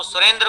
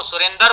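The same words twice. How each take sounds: First: Said in the usual way. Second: सुरेंद्र said as surendar; cluster split. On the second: Shown as a demonstration. Teacher showing Punjabi students' fault, dra split into dar. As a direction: put an 'a' between d and r, सुरेंदर. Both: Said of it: "सुरेंद्र को सुरेंदर बोलता है".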